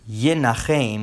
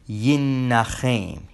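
First: The middle consonant is short and single. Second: The middle consonant is doubled and lengthened. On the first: He will comfort others. "which means he will comfort" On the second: He will be comforted by others. "he shall be comforted. That with the dagesh chazak"

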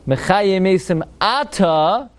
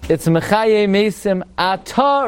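First: The stress of 'ata' is on the first syllable. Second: The stress of 'ata' is on the last syllable. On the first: It is the rainy season. "During the rainy season, or if you don't say Marad Hatal, it's Milel" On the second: It is the summer. "But if you don't say Marad Hatal in the summer"

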